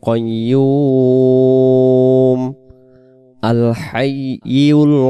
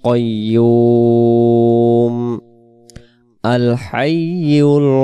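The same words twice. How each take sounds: The two takes are said the same way.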